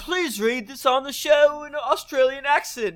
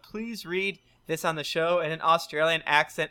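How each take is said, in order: First: It is read in a put-on Australian accent. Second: It is read in the speaker's ordinary accent.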